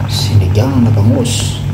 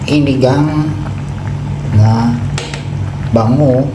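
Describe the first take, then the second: First: Every S sound is pronounced normally. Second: Every S sound is left out.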